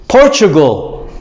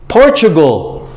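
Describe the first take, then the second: The two takes are said the same way.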